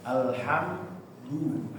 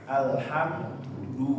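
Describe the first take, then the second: No difference in how they are said.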